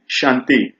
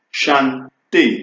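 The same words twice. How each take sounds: First: Said in the usual way. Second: "Chanter" split in two, chan, té; syllable by syllable. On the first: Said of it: "mais c'est facile". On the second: Shown as a demonstration. Teacher breaking down an example word, "Chanter" in separate syllables. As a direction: break "Chanter" after "Chan", with a pause before "ter". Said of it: "je le fais compliqué".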